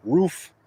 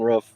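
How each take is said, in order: First: "Roof" said high with a clear long oo; over-correct "Roof" with a drawn oo, pitched up; corrected pronunciation. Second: Said in the usual way. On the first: Shown as a demonstration. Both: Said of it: "I say roof weird".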